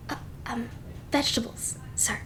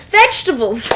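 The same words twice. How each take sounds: First: "vegetables," said softly and timidly, much quieter; timid prompt. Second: "Vegetables!" called out louder with a falling finish; loud exclamation. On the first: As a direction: offer "vegetables," almost under your breath. Maid prompts the Duke. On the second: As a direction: announce "Vegetables!" triumphantly to the table. Duke repeats triumphantly. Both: Acted.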